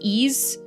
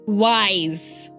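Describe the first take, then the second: First: It starts with a vowel, like 'ease'. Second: It starts with a 'w' sound, like 'wise'.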